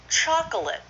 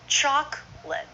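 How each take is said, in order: First: The word is said with three syllables. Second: The word is said with two syllables.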